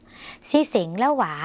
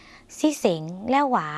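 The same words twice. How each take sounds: First: "ซี่เส็งแล้วหวา" spelled out slowly, syllable by syllable, in Lao; slow clear Lao model phrase. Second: "ซี่เส็งแล้วหวา" repeated even slower, each Lao syllable drawn out; slower second Lao model. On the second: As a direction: say "ซี่เส็งแล้วหวา" again at a crawl so learners can copy it. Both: Shown as a demonstration. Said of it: "คุณผู้ชมลองฝึกออกเสียงภาษาลาว".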